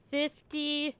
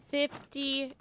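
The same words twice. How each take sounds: The two takes are said the same way.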